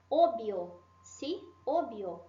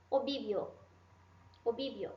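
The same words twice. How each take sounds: First: Obvio with one single b sound, o-bio; correct obvio. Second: Obvio with both b and v sounded, obibio; wrong double-sound obvio. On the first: Teacher models the right Obvio after the wrong one. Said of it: "É assim que a gente deve pronunciar". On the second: Teacher demos the common wrong obibio to students. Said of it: "Isso está errado". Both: Shown as a demonstration.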